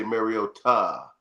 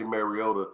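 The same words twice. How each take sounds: First: "Mariota" with a full, stressed "TAH" ending; corrected pronunciation. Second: "Mariota" with a weak, unstressed "tuh" ending; wrong pronunciation. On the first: Correcting how co-host says the name, "Mariota" ending in stressed "tah". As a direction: say "Mariota" landing firmly on a long "tah". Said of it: "you say Mariota". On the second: Showing co-host how not to say "Mariota", ending swallowed as "tuh". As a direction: say "Mariota" letting the last syllable drop to "duh". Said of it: "You don't say Mariota". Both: Shown as a demonstration.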